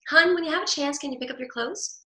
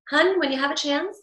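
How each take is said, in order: First: Lilting up. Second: Tone goes up. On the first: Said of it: "I could just lilt up and say". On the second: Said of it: "the tone goes up and there's no, there's no prickly back". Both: Shown as a demonstration.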